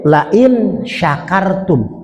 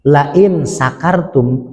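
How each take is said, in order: First: The verb begins with an 'sh' sound. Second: The verb begins with a plain 's' sound. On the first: Whoever is grateful. The speaker calls it right. "Pakai shin gede" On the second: Whoever is drunk. The speaker calls it wrong. "Kalau ilangin titiknya tiga jadi sin kecil"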